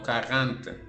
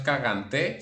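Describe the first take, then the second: First: The word ends without a final vowel sound. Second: The word ends with a sounded final vowel. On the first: The speaker calls it right. "sino cagante" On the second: The speaker calls it wrong. "la E final no se pronuncia, entonces no es cagante"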